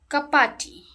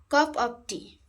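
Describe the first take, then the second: First: The word 'of' is reduced to a soft sound. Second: The word 'of' is said fully and strongly. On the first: The speaker calls it right. "Soft sound" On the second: The speaker calls it wrong. "Of. This is strong"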